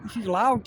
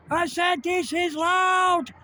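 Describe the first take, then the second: First: Said in the usual way. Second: Higher, slow, over the wind; calling over the wind to the viewers; raised over the wind. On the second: Real, not acted. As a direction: repeat it louder so they hear.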